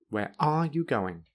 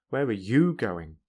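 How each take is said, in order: First: The strongest stress falls on the word are. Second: The strongest stress falls on the word you. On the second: "and you"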